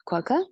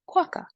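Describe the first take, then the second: First: It is said with a British accent. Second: It is said with an American accent.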